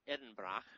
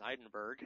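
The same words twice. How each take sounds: First: Said in the usual way. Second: "Edinburgh" said as "Eye-din-burg"; deliberate mispronunciation. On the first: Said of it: "also known as Edinburgh". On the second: Pretend. Host joking about the city's name, "Edinburgh" mangled as "Eye-din-burg". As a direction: end "Edinburgh" in a hard "berg". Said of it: "also known as".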